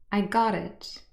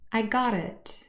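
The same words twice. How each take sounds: First: The t is a quick flap joining into it. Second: The same.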